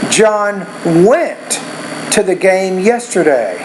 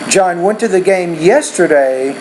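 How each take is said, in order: First: The stress falls on the word went. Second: The stress falls on the word yesterday. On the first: He did go to the game. "Need to put more stress in the word went" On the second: It was yesterday, not last week. "if you want to focus on yesterday"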